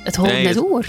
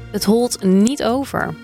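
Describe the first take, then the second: First: It is said with Frisian dialect pronunciation. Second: It is said with Drents dialect pronunciation. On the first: "dat is Fries" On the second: "ik heb even wat woorden opgezocht"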